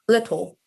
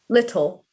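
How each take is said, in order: First: It is said in a Cockney accent. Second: It is said in an RP accent.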